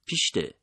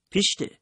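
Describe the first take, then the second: First: Firm frowning shoo, پیشته at normal pitch; a stern first shoo. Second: پیشته shot out much higher and louder; a sudden sharp shoo to scare it. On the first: Narrator frowning at the rabbit in the doorway, stern. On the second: Narrator scaring the rabbit from the doorway, sharp loud shoo. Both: A narrator's reading. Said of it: "اخم کردم و گفتم".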